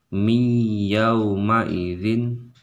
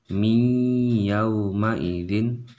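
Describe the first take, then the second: The two takes are said the same way.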